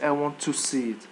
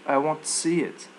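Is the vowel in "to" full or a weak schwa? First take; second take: full; schwa. First: The word "to" has a full vowel. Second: The word "to" has a weak schwa. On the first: The speaker calls it wrong. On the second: The speaker calls it right.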